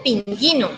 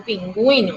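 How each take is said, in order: First: "pinguino" said as pin-GHEE-no; silent u. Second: "pingüino" said as pin-GWEE-no; sounded u. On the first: Teacher showing the wrong form, u left silent. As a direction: drop the u sound in "pinguino". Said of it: "Yo no digo". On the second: Teacher explaining the dieresis, u pronounced. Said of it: "el acento a la U". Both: Shown as a demonstration.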